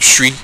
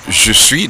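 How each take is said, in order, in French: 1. Les syllabes se fondent en une forme raccourcie. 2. Les deux syllabes sont prononcées en entier, avec leurs voyelles. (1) "devient je suis" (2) "je suis devient"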